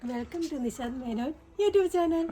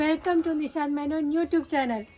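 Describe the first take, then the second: First: It is said quietly. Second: It is said loudly.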